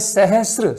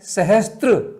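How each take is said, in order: First: It ends in 'sr' with no 't' sound. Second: It ends in 'str' with a 't' sound. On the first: The speaker calls it right. "शब्द है सहस्र, स में रह है" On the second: The speaker calls it wrong. "कितना गलत उच्चारण होता है"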